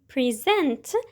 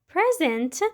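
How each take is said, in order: First: The stress is on the second syllable. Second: The stress is on the first syllable. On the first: It is a verb meaning to give or show. "a verb that means to give or show" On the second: It is a noun meaning a gift or now. "a noun that means either right this moment or a gift"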